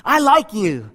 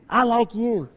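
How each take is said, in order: First: Lightly voiced boy; plain, friendly call into the cave. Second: Soft, distant echo; cave echo. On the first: Boy being nice to the voice, light call. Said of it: "he ran back and he says". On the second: Acted. Cave returning the boy's words, soft echo. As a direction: hush it into a faraway echo. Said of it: "what do you hear back".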